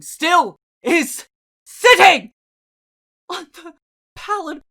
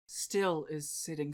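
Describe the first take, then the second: First: Swelling outcry. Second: Softer, low and hushed; quiet. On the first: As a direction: stretch it out in anguish. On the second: Narrator observing the unmoving raven, hushed. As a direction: let it settle, barely spoken. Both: A narrator's reading.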